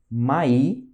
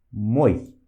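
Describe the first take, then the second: First: "Mai" with the i drawn out; long Russian I. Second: "moi" as one clipped syllable, lower; short Russian I. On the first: Teacher demonstrating for students, long I held. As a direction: stretch the i in "Mai". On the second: Teacher demonstrating for students, short I kratkaya. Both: Shown as a demonstration. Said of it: "olha só a diferença".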